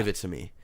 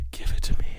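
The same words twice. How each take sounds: First: Said in the usual way. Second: Breathy whisper. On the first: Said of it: "plain then whispered repeat". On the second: Shown as a demonstration. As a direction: whisper it close. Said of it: "whispered repeat".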